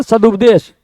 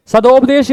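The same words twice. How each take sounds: First: सदुपदेश said with u, sa-du-pa-desh, as the right form; सदुपदेश with u, shown as correct. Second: सदोपदेश said with o, sa-do-pa-desh, as the wrong form; सदोपदेश with o, shown as incorrect. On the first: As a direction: give सदुपदेश with a clear u as the fix. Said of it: "शब्द होता है सदुपदेश". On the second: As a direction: mark सदोपदेश with o as the mistake. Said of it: "सदोपदेश नहीं होता". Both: Shown as a demonstration.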